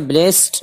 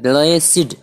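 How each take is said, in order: First: The word is said as one syllable. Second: The word is said as two syllables. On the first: The speaker calls it wrong. "इसे ब्लेस्ड नहीं पढ़ना" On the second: The speaker calls it right. "बल्कि ब्लेसिड"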